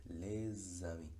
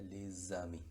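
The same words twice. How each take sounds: First: "les amis" said slowly, S linked as Z into amis; slow liaison demo. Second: "les amis" with the S linked as a Z sound into amis; liaison in les amis. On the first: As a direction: stretch out "les amis" and link the Z. ("les amis" lento, enlazando la S con la A) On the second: ("les amis" con enlace, la S suena como Z) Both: Shown as a demonstration. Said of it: "la pronunciación sería".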